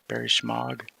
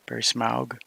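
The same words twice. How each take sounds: First: "Schmaug" begun with a hushing sh; name with sh. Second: "Smaug" begun with s, no sh; name with plain s. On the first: Trying to recall Barry's surname, "Schmaug" said with sh. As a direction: say "Schmaug" with a sh sound at the start. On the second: Trying to recall Barry's surname, "Smaug" said with plain s. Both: Real, not acted.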